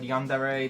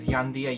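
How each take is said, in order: First: The word ends with a 'deh-ray' sound. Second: The word ends with a 'dee-ah' sound. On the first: The speaker calls it right. "Many people have difficulty pronouncing the word Yandere" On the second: The speaker calls it wrong. "The most common pronunciation, mispronunciation is Yandia"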